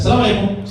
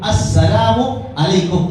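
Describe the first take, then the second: First: The opening 'as-' and the '-u' ending are dropped. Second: The greeting is said with 'as-' and '-u' included. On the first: The speaker calls it wrong. "आमतौर से सलाम में भी गलती कर जाते" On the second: The speaker calls it right. "बल्कि सही तरीका"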